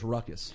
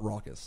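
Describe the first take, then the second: First: The first syllable sounds like 'ruck'. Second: The first syllable sounds like 'raw'. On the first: The speaker calls it wrong. "the couple times you referred to it was as Ruckus" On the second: The speaker calls it right. "That Raucous is pronounced Raucous"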